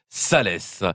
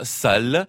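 First: The name ends with a pronounced final syllable. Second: The name ends silently after the l sound. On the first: The speaker calls it wrong. "ou alors on peut dire Salès" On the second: The speaker calls it right. "On peut dire soit sale"

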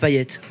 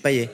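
First: The final T sound is clearly pronounced. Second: The final T sound is left silent. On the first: This is how the name is said in its place of origin. The speaker calls it right. "vous doutez bien qu'il y a peut-être le T qu'on prononce" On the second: Someone else read the name from its spelling. The speaker calls it wrong. "Ah non, moi j'ai Payet"

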